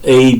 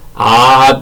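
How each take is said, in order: First: The letter is named as in English. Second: The letter is named as in Russian. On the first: "영어로 A, B, C, D 하고 읽는 게 아니라" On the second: "러시아식으로"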